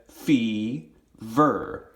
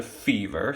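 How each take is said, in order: First: "fever" in two long beats, fee, ver; clapped-out syllables. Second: Said in the usual way. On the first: Shown as a demonstration. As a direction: break "fever" slowly after fee. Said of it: "So we would clap it". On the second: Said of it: "we go to fever".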